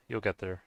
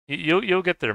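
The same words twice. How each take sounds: First: Said in the usual way. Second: High, loud cheering on; loud encouragement. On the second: Real, not acted. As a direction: lift him up with a shout. Encouraging a struggling friend.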